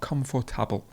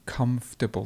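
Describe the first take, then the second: First: Every syllable of the word is fully pronounced. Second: A middle syllable is dropped from the word. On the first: The speaker calls it wrong. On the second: The speaker calls it right. "Do you remember how we lost a sound before? We do the same thing here"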